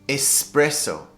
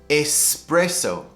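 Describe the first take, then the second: The two takes are said the same way.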